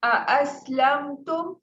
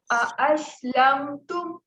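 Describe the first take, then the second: First: اَأَسْلَمْتُمْ with both hamzas struck firmly and clearly; teacher repeats the example for the class; tajweed demonstration. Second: Slow, with the hamza said clearly and with force; teacher shows tahqeeq on اَأَسْلَمْتُمْ; tajweed demonstration. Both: Shown as a demonstration. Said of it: "کیسے".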